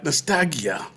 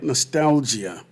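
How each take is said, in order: First: The word comes out garbled and stumbled. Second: The word comes out smoothly and clearly. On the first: The speaker calls it wrong. "I could not say the word nostalgia. I was like" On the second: The speaker calls it right. "you heard how I said it"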